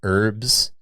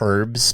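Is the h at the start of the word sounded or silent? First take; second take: silent; sounded. First: The word starts without an h sound. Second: The word starts with an h sound.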